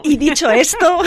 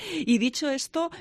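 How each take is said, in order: First: Put-on laughing Mexican accent, pitched up. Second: Said in the usual way. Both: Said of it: "con acento mexicano".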